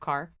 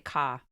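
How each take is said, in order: First: The final r is clearly pronounced. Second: The final r is dropped, a Boston accent. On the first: "instead of car" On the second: "She would say ka"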